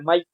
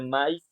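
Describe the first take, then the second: First: The a and i glide together in one syllable. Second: The a and i are split into two syllables. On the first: The speaker calls it wrong. "en este caso no se dice maíz" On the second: The speaker calls it right. "se dice maíz, ¿no? O sea que la A y la A suenan separar"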